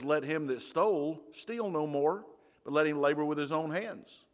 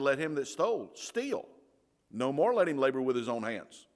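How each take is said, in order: First: It is read with normal phrasing after 'no more'. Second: It is read with a break right after 'steal'.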